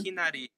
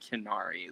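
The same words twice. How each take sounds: First: It is said with Japanese-style pronunciation. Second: It is said with English-style pronunciation. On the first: The speaker calls it right. "I have to say it like that" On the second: The speaker calls it wrong. "it doesn't feel right to be like Hinari"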